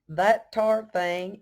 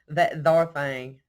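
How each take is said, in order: First: The second word starts with a plain t. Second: The second word starts with a th sound. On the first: The speaker calls it wrong. "not that tar" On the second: The speaker calls it right. "it would be that thar"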